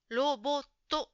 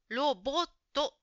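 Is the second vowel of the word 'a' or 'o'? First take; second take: o; o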